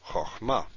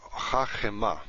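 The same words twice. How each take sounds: First: Chochma in two syllables; chochma without metheg. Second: Chachema, three full syllables; chachema with metheg. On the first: Teacher contrasting chochma without metheg. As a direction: clip the first vowel of chochma short. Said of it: "This means wisdom". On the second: Teacher demonstrating chachema with metheg. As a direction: give chachema its full first vowel. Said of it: "That means she is wise". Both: Shown as a demonstration.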